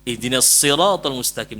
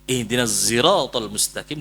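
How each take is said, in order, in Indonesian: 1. Kata sirat diawali dengan bunyi s emfatik. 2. Kata sirat diawali dengan bunyi s yang bercampur z. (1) "dengan shad" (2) "dengan zai ismam"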